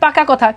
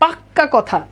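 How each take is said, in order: First: The middle consonant is short and single. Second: The middle consonant is long and doubled. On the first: It is a plain statement of a settled matter. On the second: It strongly insists the matter is settled.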